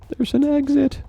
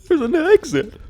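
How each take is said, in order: First: It is read out in a plain voice. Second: It is said half sobbing, half exclaiming.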